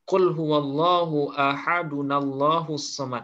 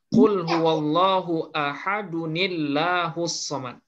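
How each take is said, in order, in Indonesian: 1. Huruf nun tersambung dengan vokal a. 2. Huruf nun tersambung dengan vokal i. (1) "Walaupun secara bunyi mungkin agak aneh ya" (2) "kasrah yang ada di huruf nun ini sebenarnya adalah harkat takhallus"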